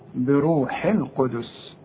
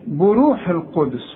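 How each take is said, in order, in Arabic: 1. أول مقطع يُنطق بحركة 'i'. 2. أول مقطع يُنطق بحركة 'u'. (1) "البيه مكسورة" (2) "كتير قوي بقى يقول لك ايه؟ ... بو"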